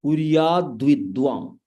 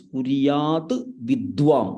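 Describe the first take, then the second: First: "कुर्याद्विद्वां" joined as kuryadvidvam; words combined. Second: "कुर्याद्विद्वां" split into kuryat and vidvam; words separated. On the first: Teacher showing the combined form, words joined. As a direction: run "कुर्याद्विद्वां" together, t softened into d. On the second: Teacher showing the parts before combining, words separated. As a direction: say "कुर्याद्विद्वां" as two words, a sharp t closing the first. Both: Shown as a demonstration. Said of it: "So when you combine it".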